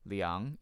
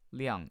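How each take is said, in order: First: The pitch rises on the word. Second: The pitch falls on the word. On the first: It is a verb meaning to measure. "liang is going up" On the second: It is a noun meaning an amount. "liang is going down"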